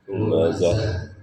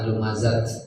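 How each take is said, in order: First: The word ends with an h sound. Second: The word ends with a t sound. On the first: The speaker calls it right. "Kalau wakof maka dibacanya bunyi H besar ya" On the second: The speaker calls it wrong. "bukan lumazat ya"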